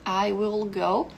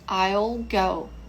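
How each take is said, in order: First: Will is said as a separate full word. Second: Will is shortened and joined to I. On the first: "eu posso falar por inteiro" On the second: "ou eu posso contrair"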